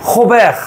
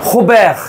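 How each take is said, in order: Both takes have the same delivery.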